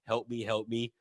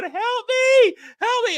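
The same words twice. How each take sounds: First: Quiet, lower mumbled help me; sleep-talking plea. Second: High mock panic cry, help me; shrill-free but high pleading yell; retold cry for help. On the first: Retold or imitated. Cohost retelling sleep-talking, a quiet low plea. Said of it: "I was actually going". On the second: Cohost retelling a nightmare, crying out high for help. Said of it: "I'm going".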